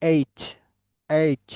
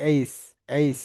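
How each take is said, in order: First: এইচ as "eitch", clear final ch; correct letter name. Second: এইচ as "eis", final s; common mispronunciation. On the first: Teacher modelling for students to repeat, এইচ ending in ch. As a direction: finish এইচ on a crisp ch sound. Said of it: "but এটাকে কি বলতে হবে?". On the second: Teacher mimicking the common error, এইচ as "eis". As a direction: end এইচ on s instead of ch. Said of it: "এটা এইচ বলে অনেকে". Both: Shown as a demonstration.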